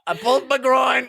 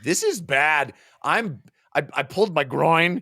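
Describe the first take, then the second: First: High, hammed-up cry of agony; mock pained shout. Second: Lightly acted complaint, higher pitch; retold grumble about an injury, pitched up a little; mock complaint. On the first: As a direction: wail it like a comically injured hero. Hero howling over pulled groin. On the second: First take of hero's complaint.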